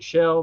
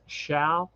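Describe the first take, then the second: First: The vowel sounds like the e in bed. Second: The vowel sounds like the a in cat. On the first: The speaker calls it wrong. "I always pronounce it shell" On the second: The speaker calls it right. "but it's shall"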